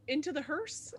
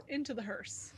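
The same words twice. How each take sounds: First: "into the hearse" lifted higher as a question. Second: "Into the hearse" at usual pitch, falling to a close; decided statement. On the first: Player suggests the group's next move, questioning. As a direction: ask "into the hearse" with a rising end. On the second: Player confirms the group's next move, decided. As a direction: settle "Into the hearse" with a falling end. Same words repeated as decision. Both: Real, not acted.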